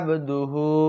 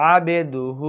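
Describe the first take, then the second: First: The b and d are joined without a vowel. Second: A short vowel is heard between b and d. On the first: The speaker calls it right. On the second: The speaker calls it wrong.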